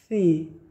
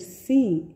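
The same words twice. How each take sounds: First: The s sound is lisped. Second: The s sound is clear. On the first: The speaker calls it wrong. "dificuldade em pronunciar a letra S" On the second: The speaker calls it right. "ao invés de dizer sim"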